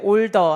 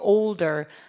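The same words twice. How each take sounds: First: The word is pronounced flatly, with little shaping. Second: The word is pronounced with exaggerated, full articulation. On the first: The speaker calls it wrong. "older 아니고" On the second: The speaker calls it right. "과도하게 삼, 쓰리디로 발음하셔야 돼요"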